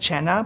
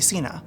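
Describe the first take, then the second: First: The name begins with a 'ch' sound. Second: The name begins with an 's' sound. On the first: The speaker calls it right. "My last name is Chenna" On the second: The speaker calls it wrong. "people call it call me Cena"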